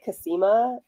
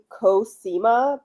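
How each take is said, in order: First: The first vowel is a relaxed 'uh' sound. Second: The first vowel is a rounded 'oh' sound. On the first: This is how the speaker's regional accent says it. "but I say Casima" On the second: This is the standard pronunciation. "it's technically Cosima"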